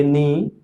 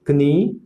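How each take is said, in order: First: नी starting directly on n; correct silent K. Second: कनी with k and short vowel before n; wrong sounded K. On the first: Teacher reads out knee correctly, k silent. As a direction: say नी with no k sound. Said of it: "correct pronunciation इसका". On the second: Teacher lists wrong readings, knee with k sounded. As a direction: add a k syllable opening कनी. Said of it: "ये wrong है". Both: Shown as a demonstration.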